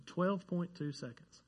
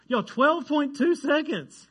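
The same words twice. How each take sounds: First: Said in the usual way. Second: High, loud, drawn-out disbelief; amazed. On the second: Real, not acted. Preacher marvels at the hurdling record to the congregation, amazed. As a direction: stretch it out, pitched way up in amazement.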